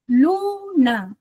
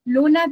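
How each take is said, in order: First: "Luna" drawn out syllable by syllable, LU strongest; stress on LU. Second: Said in the usual way. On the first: Shown as a demonstration. Teacher showing students the trochaic rhythm, first syllable of "Luna" stressed. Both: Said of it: "El que más suena fuerte es la lu".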